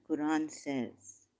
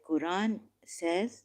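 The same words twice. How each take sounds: First: Slow "Quran says" with the tune falling to a close; falling, closed phrasing. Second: Slow "Quran says" with "says" left rising; rising, open-ended phrasing. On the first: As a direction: let "Quran says" drop softly at the end. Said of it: "I said". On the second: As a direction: say "Quran says" as if a quote follows. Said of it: "not Quran says". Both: Shown as a demonstration.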